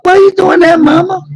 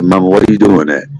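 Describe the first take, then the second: First: The voice is pitched unusually high. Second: The voice is pitched low and deep. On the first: The son avoids sounding grown-up and defiant. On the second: The son sounds grown-up and challenging.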